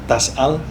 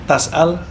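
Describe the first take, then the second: Both takes have the same delivery.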